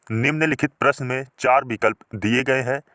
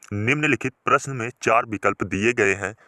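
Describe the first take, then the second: No difference in how they are said.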